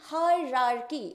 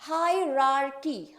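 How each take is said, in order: No difference in how they are said.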